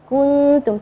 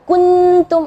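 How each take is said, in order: First: The n is hidden with light nasal sound. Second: The n is pronounced fully and clearly. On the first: The speaker calls it right. "Jadi kuntum tipis, ya, uh, uh, gunnahnya tipis" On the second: The speaker calls it wrong. "jangan kuntum atau kuntum, ah, itu jadi idhar"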